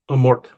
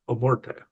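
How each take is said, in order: First: The name ends without an extra vowel sound. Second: The name ends with an extra vowel sound. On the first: The speaker calls it right. "It's Amort" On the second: The speaker calls it wrong. "I keep saying Amorte with like an accent at the end"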